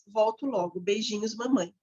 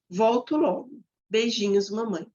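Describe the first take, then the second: First: It is read hurriedly, without expressive intonation. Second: It is read carefully, with fitting intonation.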